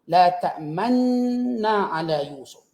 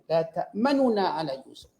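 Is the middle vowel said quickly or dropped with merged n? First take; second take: dropped; said quickly. First: The vowel is dropped and the n sounds merge. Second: A quick short vowel is heard between the n sounds. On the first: "Dimunculkan dua bibir tanpa bunyi suara" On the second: "dibaca dengan satu la ta'manuna, laju"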